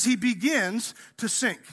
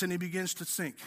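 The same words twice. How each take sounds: First: "begins" drawn out and leaned on, slow; slow the phrase down to stress "begins". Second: Said in the usual way. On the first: Shown as a demonstration. Preacher correcting that he doesn't dunk, slow stress on "begins". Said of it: "It doesn't say he dunks". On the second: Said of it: "It says he begins to sink".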